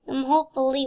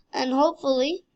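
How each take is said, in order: First: Light mock Russian accent on "hopefully"; a hint of Russian accent. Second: Said in the usual way. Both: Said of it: "why am I doing a Russian accent?".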